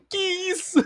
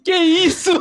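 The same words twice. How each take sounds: First: Very high squeaky laughing question; breathless laughing disbelief. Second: High, loud laughing question; laughing disbelief. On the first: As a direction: gasp it out mid-laugh. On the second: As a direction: ask it while cracking up. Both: Real, not acted. Laughing at the joke.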